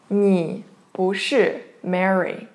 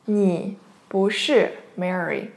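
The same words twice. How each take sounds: The two takes are said the same way.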